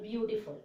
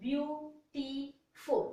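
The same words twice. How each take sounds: First: Said in the usual way. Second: Beautiful very slowly in three beats, beau - ti - ful; broken into syllables. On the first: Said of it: "എത്ര പ്രാവശ്യം mouth open ചെയ്യും?". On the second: Shown as a demonstration. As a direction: break beautiful into three separate syllables with gaps. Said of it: "You are breaking three".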